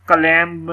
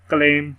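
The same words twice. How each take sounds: First: क्लेम said wrongly as "klemb"; क्लेम ending in "mb"; sounded final b. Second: क्लेम ending cleanly on m; क्लेम as "klem", b dropped; silent final b. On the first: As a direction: add an audible b after the m of क्लेम. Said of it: "क्लेम नहीं पढ़ना". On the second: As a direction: say क्लेम with no b at the end. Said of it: "बी की sound नहीं आएगी". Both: Shown as a demonstration.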